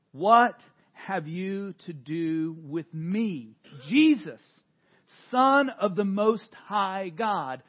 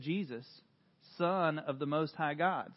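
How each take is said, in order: First: Loud, slow crying out of the name. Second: Said in the usual way. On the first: Acted. Preacher reading the possessed man crying out, loud and slow. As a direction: call out slowly, louder. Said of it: "crying out with a loud voice". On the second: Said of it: "a name tag that said".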